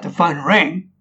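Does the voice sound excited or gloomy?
excited. It is said in an excited, upbeat tone. Good news has arrived. "you know what's happened? She got the job"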